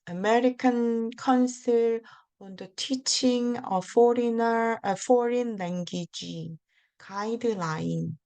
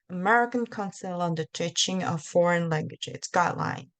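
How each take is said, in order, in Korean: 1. 이 구절은 천천히 그리고 조심스럽게 말합니다. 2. 이 구절은 빠르게 말하고 이어서 붙여 말합니다. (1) "이렇게 말하면 외국인 사람들이 그 비원어민을 만난 적 없는 사람들이 하나도 못 알아듣어요" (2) "진짜 막 완전 꽈야 돼요. 이런 식으로 속도도 빨리 해야 돼요"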